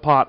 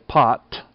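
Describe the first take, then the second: First: The final T ends without a puff of air. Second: The final T ends with a puff of air. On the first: "the T at the end of pot doesn't have the puff of air" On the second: "sometimes we do add the puff. We will overemphasize it"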